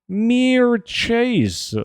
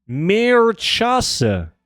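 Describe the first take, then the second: First: Mirchase said as meer-CHAYZ, one long falling syllable at the end; much higher Mirchase ending in a long fall; English-style name. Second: Mirchase said as meer-KAH-seh, held out high; much higher Mirchase, slow and drawn out; Italian-style name. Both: Shown as a demonstration.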